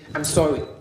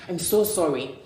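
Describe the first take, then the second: First: The apology sounds brash and curt. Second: The apology sounds sincere and gentle.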